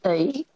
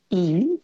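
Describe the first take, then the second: First: "E" with a broad gliding onset, towards "oi"; E as diphthong. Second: Said in the usual way. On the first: Shown as a demonstration. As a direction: slide into the vowel "E" as in broad Australian. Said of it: "can sound like". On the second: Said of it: "So the vowel sound E".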